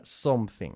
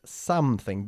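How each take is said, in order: First: "something" with a round o, SOM-thing; mispronounced with o. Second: "something" slowly as SAM-thing, open first vowel; open-jawed vowel. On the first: Teacher showing learners the mistake, "something" said with an o, SOM-thing. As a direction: say "something" wrongly, first vowel as Spanish o. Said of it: "no se pronuncia something". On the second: Teacher modelling the vowel sound, "something" slow with an open SAM. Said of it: "bajando la mandíbula para pronunciar". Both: Shown as a demonstration.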